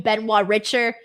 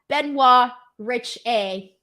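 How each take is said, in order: First: The surname ends with an 'er' sound. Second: The surname ends with an 'ay' sound. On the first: The speaker calls it wrong. "this whole time I've been calling you Benoit Richer" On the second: The speaker calls it right. "It's pronounced Rich A. Rhyme with partay"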